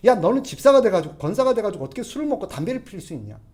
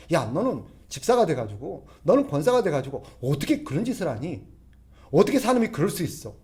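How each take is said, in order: First: Higher, much louder scolding shout; loud rebuke. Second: Mild rebuke. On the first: Churchgoer scolding a deacon who drinks and smokes, loud mock shout. Preacher acts out harsh rebuke. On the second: Preacher acts out rebuking a deacon. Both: Acted.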